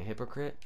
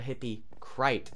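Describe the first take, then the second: First: The first syllable sounds like 'hip'. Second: The first syllable sounds like 'hippie'. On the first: The speaker calls it right. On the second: The speaker calls it wrong.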